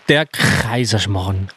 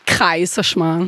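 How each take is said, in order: First: Kaiserschmarrn slowly with a harsh scraped Tyrolean "Kch" at the start; Tiroler Kr. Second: Learner slowly copying Kaiserschmarrn with a "Kr" onset; Tiroler Kr nachgesprochen. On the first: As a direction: draw out Kaiserschmarrn, rasping the K into "Kchr". (Kaiserschmarrn langsam mit kratzigem Tiroler K) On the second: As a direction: draw out Kaiserschmarrn, attempting the scraped Tyrolean K. (Kaiserschmarrn langsam, Tiroler K nachgeahmt) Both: Shown as a demonstration. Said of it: "alles immer mit Kr".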